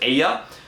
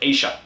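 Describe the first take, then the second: First: The double L sounds like y. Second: The double L sounds like sh.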